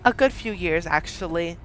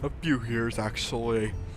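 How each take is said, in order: First: It is said in the reader's natural voice. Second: It is said in a put-on character voice. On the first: The speaker calls it wrong. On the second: The speaker calls it right.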